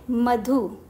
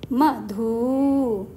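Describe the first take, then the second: First: The final vowel is kept short. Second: The final vowel is drawn out long. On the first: The speaker calls it right. "ये है मधु" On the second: The speaker calls it wrong. "यदि इसमें बड़े ऊ की मात्रा होती तो हम इसे कैसे बोलते?"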